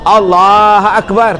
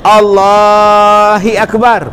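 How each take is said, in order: First: No vowel follows the h of Allah. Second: An i vowel follows the h of Allah. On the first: "Dia tak disebut Allah, Allah Akbar, tak mau" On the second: "Allahi Akbar pun tak mau"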